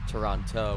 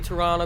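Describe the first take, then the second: First: The second T is clearly pronounced. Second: The second T is silent. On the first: "with a non-silent second T" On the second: "that's actually how you pronounce it"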